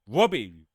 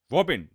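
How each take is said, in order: First: Robin slipped into "Robbie", loud; slip of the tongue. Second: Robin with its final n sounded; self-correction. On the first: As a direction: say Robin without its final n. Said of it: "Robin, not Robbie". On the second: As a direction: correct yourself firmly on Robin, ending in n. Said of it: "not Robbie". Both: Real, not acted.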